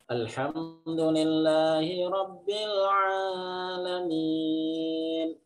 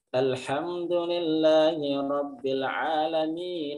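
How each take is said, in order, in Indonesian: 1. Dibaca dengan lambat, lalu diikuti dengan berhenti. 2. Dibaca dengan cepat, langsung bersambung terus. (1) "Pelan-pelan biar Allah merespon" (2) "Itu namanya disambung-sambung"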